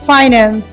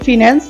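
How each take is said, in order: First: The first syllable sounds like 'fine'. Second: The first syllable sounds like 'fin'. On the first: The speaker calls it right. "এটা হবে ফাইন্যান্স" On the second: The speaker calls it wrong. "আমরা বলে থাকি ফিন্যান্স"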